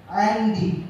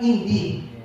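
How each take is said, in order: First: The first vowel is an a sound. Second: The first vowel is an i sound. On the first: The speaker calls it wrong. "tapi dia baca andi" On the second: The speaker calls it right. "di situ kan indi"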